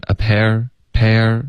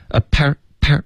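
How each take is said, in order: First: "a pair" drawn out, sliding smoothly into the r; relaxed, connected glide. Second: "a pair" in blunt, separate syllables, no glide; blunt, choppy syllables. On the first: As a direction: let "pair" glide loosely into its r. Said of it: "放松连贯". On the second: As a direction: cut "pair" off stiffly, unconnected. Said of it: "一字一顿的". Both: Shown as a demonstration.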